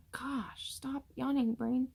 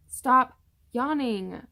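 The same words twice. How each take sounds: First: Soft plea. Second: A louder, higher, slowed order to herself; exasperated command. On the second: Pregnant vlogger scolding herself for yawning, loud and slow. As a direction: scold your own yawning, dragging each word. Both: Real, not acted. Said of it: "Five times".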